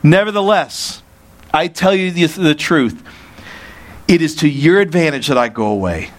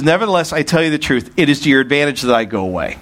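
First: Measured, raised reading of the verse; scripture reading. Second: Fast run through the verse; quick re-read. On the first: Preacher reads verse seven to the congregation, measured and raised. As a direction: read it out with weight. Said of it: "Verse seven". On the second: Preacher quickly rereads verse seven to the congregation, fast. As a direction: rattle it off to get back to it. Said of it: "Back to seven". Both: Shown as a demonstration.

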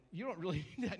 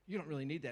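First: Laughing conscience. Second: Said in the usual way. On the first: Shown as a demonstration. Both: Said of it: "the conscience is starting to go".

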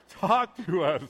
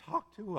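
First: Said in the usual way. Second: Squeaky break on talk; voice squeak. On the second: Real, not acted. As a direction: voice cracks on talk. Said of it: "my voice squeaked a little bit there".

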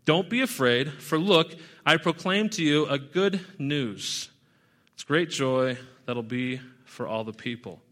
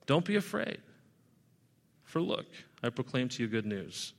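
First: Said in the usual way. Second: "Don't be afraid" said softer and gentler, sinking quieter on "good news"; soft and calming. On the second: Shown as a demonstration. Angel calming the terrified shepherds, softly reassuring. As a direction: ease their fear, let it drop to a soothing hush. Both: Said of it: "the response to try to calm them down".

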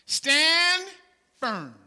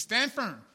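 First: Proclaimed loud. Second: Said in the usual way. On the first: Shown as a demonstration. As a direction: STAND called out high and loud, firm dropped. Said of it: "here's what he says in verse fourteen". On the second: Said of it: "He says".

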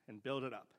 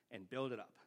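Both takes have the same delivery.

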